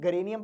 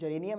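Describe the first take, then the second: First: The word begins with a hard G sound. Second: The word begins with a soft J sound. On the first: The speaker calls it wrong. "कुछ लोग गरेनियम पढ़ लेते हैं" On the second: The speaker calls it right. "Exact pronunciation जेरेनियम है"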